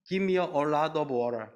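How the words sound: It is spoken in an American English accent. "친숙한 미국 영어로는"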